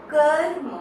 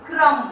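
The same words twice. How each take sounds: First: कर्म with र sounded before म, said loud; half r demo. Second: क्रम with र right after क, said loud; r after consonant demo. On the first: Teacher shows where र falls in कर्म. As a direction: voice the र ahead of म in कर्म. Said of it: "जैसे हमने बोला कर्म". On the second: Teacher contrasts क्रम with कर्म for children. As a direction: glide क straight into र in क्रम. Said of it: "अगर व्यंजन के बाद र की ध्वनि आती". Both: Shown as a demonstration.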